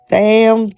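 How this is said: It is said imitating Florida Evans's voice.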